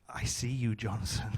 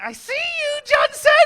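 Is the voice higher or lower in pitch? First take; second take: lower; higher. First: It is said at a lower pitch. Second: It is said at a higher pitch.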